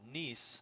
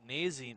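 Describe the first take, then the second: First: The name is said with one syllable. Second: The name is said with two syllables. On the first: This is how the family says it now. "they now pronounce it Neese" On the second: This is how the family used to say it. "instead of pronouncing it Nazy"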